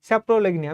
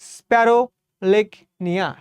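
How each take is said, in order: First: The word begins with the sounds 'sapro'. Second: The word begins with the sounds 'sparo'. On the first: The speaker calls it right. "স্যাপ্রোলেগনিয়া আর কি" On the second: The speaker calls it wrong. "আমি স্প্যারো বলতাম সবসময়।"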